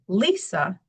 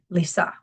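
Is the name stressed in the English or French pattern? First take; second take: English; French. First: The name follows the English stress pattern. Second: The name follows the French stress pattern. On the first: "that's the stress pattern in English" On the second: "as opposed to in French, I would be Lisa"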